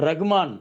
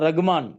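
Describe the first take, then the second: Both takes have the same delivery.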